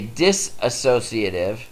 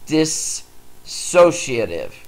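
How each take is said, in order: First: An extra 'a' syllable follows the first syllable. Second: No extra syllable follows the first syllable. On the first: The speaker calls it wrong. "A lot of people will try and put an A in there" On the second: The speaker calls it right. "So say that"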